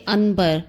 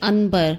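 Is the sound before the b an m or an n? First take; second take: n; n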